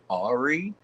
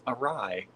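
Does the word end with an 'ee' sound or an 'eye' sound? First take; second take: ee; eye. First: The word ends with an 'ee' sound. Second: The word ends with an 'eye' sound. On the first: The speaker calls it wrong. "in my head, I'd pronounce it wrong" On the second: The speaker calls it right. "No, it's awry"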